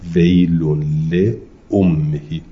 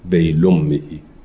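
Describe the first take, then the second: First: The glottal stop is pronounced in full. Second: The glottal stop is left out completely.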